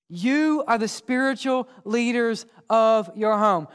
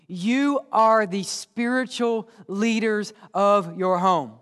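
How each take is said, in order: First: Said in the usual way. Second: Slow, weighty delivery, each word set down; slow emphatic. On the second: Shown as a demonstration. Pastor telling parents slowly and weightily. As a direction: drag it out so it sinks in.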